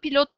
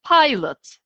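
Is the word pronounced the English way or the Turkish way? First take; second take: Turkish; English. First: The word is said with Turkish pronunciation. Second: The word is said with English pronunciation. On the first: The speaker calls it wrong. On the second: The speaker calls it right.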